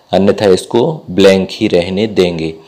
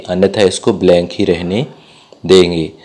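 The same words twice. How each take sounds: Both takes have the same delivery.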